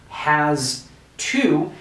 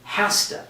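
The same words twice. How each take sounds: First: The word has ends with a z sound. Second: The word has ends with an s sound. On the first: "this is pronounced like a Z sound" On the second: "we actually pronounce it with an S"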